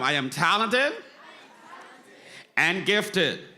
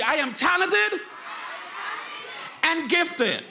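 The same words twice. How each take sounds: First: Said in the usual way. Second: Even more energy. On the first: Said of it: "One more time". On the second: Shown as a demonstration. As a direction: shout it out, rally the whole room. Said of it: "You gotta say it with more energy".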